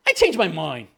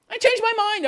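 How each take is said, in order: First: Said in the usual way. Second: "changed" jumps much higher, mock whiny. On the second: Mocking an intern who wants pay, whiny high repeat. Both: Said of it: "and then saying".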